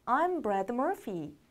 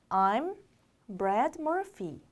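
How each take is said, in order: First: Said in the usual way. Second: Slow, word by word with pauses; slow reading. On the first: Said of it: "따라해봅니다". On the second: Shown as a demonstration. Teacher modelling a name introduction for learners, slowly and separated. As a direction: read it out slowly, piece by piece. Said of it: "천천히 읽어볼게요".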